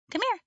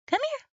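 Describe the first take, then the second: First: Very high, coaxing call to the puppy; high dog call. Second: "here" rising at the top of a very high call; high rising dog call. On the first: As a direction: sing it up high to lure the dog. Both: Real, not acted. Calling the puppy over.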